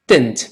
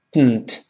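First: Dent with its vowel clearly said, "den-t"; full dent. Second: Dent as "d'nt", vowel swallowed into the nose; nasal plosion. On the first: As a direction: release the d of dent through the mouth. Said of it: "dent变成dent". (dent 完整读出元音) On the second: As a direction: release dent through the nose. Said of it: "这个现象叫鼻腔爆破". (dent 鼻腔爆破) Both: Shown as a demonstration.

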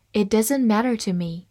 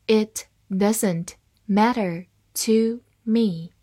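First: Said in the usual way. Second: "It doesn't matter to me", slowly, word by word; slow read-along. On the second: Shown as a demonstration. Teacher reading the example for learners to follow, slow and separated. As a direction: leave a gap after every word for learners. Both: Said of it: "好，慢慢来读".

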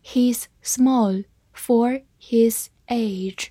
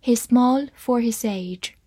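First: Very slow, separate words; slow reading. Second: Said in the usual way. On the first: Shown as a demonstration. Teacher models the sentence for learners to follow, slow reading. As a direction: leave a clear pause after each word. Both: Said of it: "慢慢来读".

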